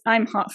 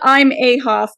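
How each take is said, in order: First: The M runs straight into Hoff. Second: An extra vowel comes between M and Hoff. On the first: The speaker calls it right. "It's I'm Hoff" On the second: The speaker calls it wrong. "It's not I'm a Hoff"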